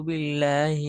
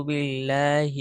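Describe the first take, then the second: The two takes are said the same way.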